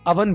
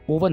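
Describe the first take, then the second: First: The first vowel is a short 'ah'. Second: The first vowel is a long 'oh'. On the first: The speaker calls it right. "इसको clay अवन बोलना है" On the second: The speaker calls it wrong. "ओवन नहीं बोलना"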